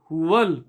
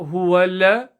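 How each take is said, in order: First: 'Huwa' links straight into 'l' as 'huwal'. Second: A separate 'la' syllable follows 'huwa'. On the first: The speaker calls it right. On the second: The speaker calls it wrong.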